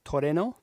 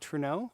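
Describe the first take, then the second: First: The word is said with three syllables. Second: The word is said with two syllables. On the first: "In Japanese, it's pronounced more like to re... To re no, like toreno" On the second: "I usually say Truno"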